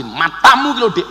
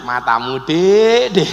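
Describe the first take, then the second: First: Mock angry. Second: Joking, teasing. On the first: Husband praised by preacher turning on wife, mock angry. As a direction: snap it like a cross spouse. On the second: Acted. Husband joking with wife over the same words, teasing. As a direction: tease a sweetheart affectionately. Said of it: "Tapi lak guyon".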